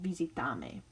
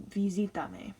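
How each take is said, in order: First: Visitame with the stress moved to TA, vi-si-TA-me. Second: Visítame with the stress on SI, vi-SI-ta-me. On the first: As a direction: lean on the TA in visitame. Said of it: "instead of visitame". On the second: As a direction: punch the SI in visítame. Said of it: "put an accent on the second last syllable". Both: Shown as a demonstration.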